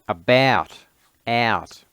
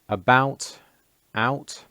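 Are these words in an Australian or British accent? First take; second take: Australian; British. First: The words are said in an Australian accent. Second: The words are said in a British accent. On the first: "then in the Australian equivalent" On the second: "in British pronunciation"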